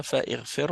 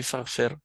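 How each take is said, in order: First: "faghfir" with an extra i, like fa-ighfir; wrong reading. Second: "faghfir" as one word, fa straight into ghfir; no vowel between fa and ghfir in "faghfir"; right reading. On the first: Teacher showing the class the wrong reading, with i sounded. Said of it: "On dit pas". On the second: Teacher giving the correct joined reading, no i. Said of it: "on dit faghfir". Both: Shown as a demonstration.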